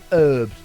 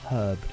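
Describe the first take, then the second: First: The word starts with no h sound. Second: The word starts with an audible h sound. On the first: The speaker calls it right. "there's no H. If you listen very carefully, it's herbed" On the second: The speaker calls it wrong. "not herbed"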